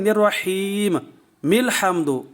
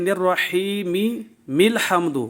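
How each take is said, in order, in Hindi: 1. पहली मीम साकिन है, फिर एक नई मीम आती है। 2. पहली मीम पर स्वर है, फिर एक मीम दोहराई जाती है। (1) "एक मीम और इसको साकिन किया और एक मीम और पैदा किया" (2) "वसल करते हुए दो मीमें पैदा कर देते हैं"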